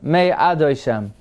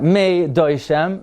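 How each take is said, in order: First: The 'a' vowel before 'doishem' is pronounced. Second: The 'a' vowel before 'doishem' is swallowed. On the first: The speaker calls it right. "you pronounce the a" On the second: The speaker calls it wrong. "Not Mei Doishem"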